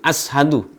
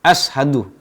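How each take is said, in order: First: The consonant after the first vowel is s. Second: The consonant after the first vowel is s.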